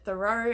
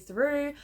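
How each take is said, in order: First: The name ends with an 'oh' sound. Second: The name ends with an 'oo' sound. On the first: The speaker calls it wrong. "I've always pronounced it Thoreau, and I'm sure that that is incorrect" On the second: The speaker calls it right. "I'm assuming because of the title that that is how I pronounce it"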